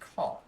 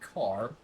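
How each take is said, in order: First: The final R sound is dropped. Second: The final R sound is clearly pronounced. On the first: The speaker calls it right. "you don't say your R's all the time" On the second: The speaker calls it wrong. "You don't say car"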